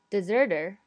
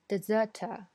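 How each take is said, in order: First: It is said with an American accent. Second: It is said with a British accent. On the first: "在美语发音中会发成deserter" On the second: "在剧中呢，它的发音是deserter"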